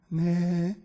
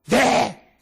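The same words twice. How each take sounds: First: The word is said in a tiny voice. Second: The word is said very loudly. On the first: The bride answers timidly. "모기 소리로 네 이렇게 하더라고" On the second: The groom answers boldly. "아주 네 크게 이렇게 해요"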